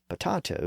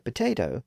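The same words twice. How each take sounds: First: The middle vowel sounds like 'ah'. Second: The middle vowel sounds like 'ay'. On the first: This form is almost never used. "rarely if ever heard" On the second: This is the form nearly everyone uses. "fully experienced the vowel shift, which is why potato is pretty much universal"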